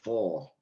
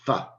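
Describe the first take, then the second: First: The word is said in full, strong form. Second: The word is reduced, with a weak vowel. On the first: "instead of "for,"" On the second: "when I'm saying "f""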